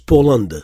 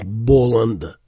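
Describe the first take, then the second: First: The word begins with a P sound. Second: The word begins with a B sound. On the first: The speaker calls it right. "on prononce Poland" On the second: The speaker calls it wrong. "C'est très peu probable d'entendre quelqu'un dire Boland"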